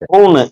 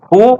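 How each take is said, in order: First: The final n sound is strong and pressed. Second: The final n sound is barely heard. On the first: The speaker calls it wrong. "ஹூன்னு இப்படின்னு அழுத்தக்கூடாது" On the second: The speaker calls it right. "நான் உச்சரிக்கும் போது என்னு சவுண்டே வராது"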